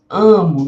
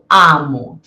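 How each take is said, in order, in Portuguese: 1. A primeira vogal é mais fechada e nasal. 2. A primeira vogal é aberta e oral. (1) "eu digo amo. Veja só que eu não abro tanto a boca" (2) "Eu não digo amo"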